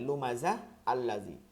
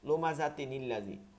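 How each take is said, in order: First: The first word stops before the second word begins. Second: The words run together with a linking n sound. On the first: "আপনি থামবেন তখন এরকম হবে" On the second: "মিলাই পড়বেন"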